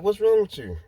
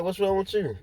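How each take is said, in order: First: High, startled "what's wrong" to a crying coworker; concerned surprise. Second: Concerned surprise. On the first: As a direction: ask it high and alarmed, much higher than your own voice. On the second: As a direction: pitch the question way up, worried. Repeats the question to crying coworker. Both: Retold or imitated.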